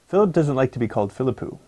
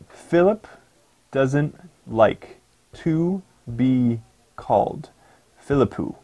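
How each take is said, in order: First: It is spoken at natural, connected speed. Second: It is spoken slowly, word by word.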